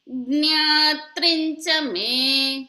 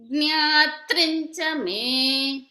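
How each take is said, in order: The two takes are said the same way.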